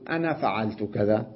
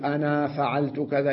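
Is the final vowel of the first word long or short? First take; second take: short; long. First: The final vowel of the first word is short. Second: The final vowel of the first word is long. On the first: The speaker calls it right. "يقول ... يحذف الألف بإسقاط الألف لفظا" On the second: The speaker calls it wrong. "لا يقول"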